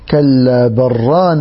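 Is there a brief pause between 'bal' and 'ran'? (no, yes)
no. 'Bal' merges straight into 'ran' without pause. "فليست له هذه السكتة، وإنما يضغم مباشرة فيقول"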